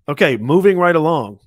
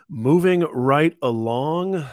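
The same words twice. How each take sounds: First: Loud, snappy transition call; brisk announcement. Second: Slow, drawn-out repeat of the line. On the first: Host to viewers, a loud snappy segment change. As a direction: clap the segment shut and move on. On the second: Host repeating to viewers, slow and drawn out. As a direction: stretch it out like a sing-song echo. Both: Real, not acted.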